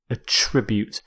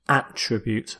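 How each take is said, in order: First: The stress is on the second syllable. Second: The stress is on the first syllable. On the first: It is used as a verb. "But here as a verb" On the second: It is used as a noun. "as a noun where you stress the first"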